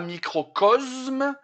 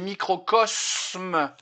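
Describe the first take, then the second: First: The s is voiced, sounding like z. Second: The s is voiceless, sounding like s. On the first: The speaker calls it wrong. "C'est pas microcosme" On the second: The speaker calls it right. "donc il se dit se"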